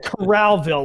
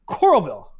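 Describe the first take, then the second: First: The first part sounds like the word corral. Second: The first part sounds like the word coral. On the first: The speaker calls it wrong. "like you're like okay Corral, like you're in cowboy country" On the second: The speaker calls it right. "It's Coral and then Ville"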